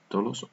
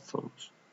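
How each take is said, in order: First: The word begins with a t sound. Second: The word begins with a th sound.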